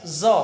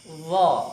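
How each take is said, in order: First: The letter begins with a plain z sound. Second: The letter begins with a sound unlike z. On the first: The speaker calls it wrong. "banyak yang membaca zo, huruf z dia" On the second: The speaker calls it right. "Tapi sebenarnya tidak"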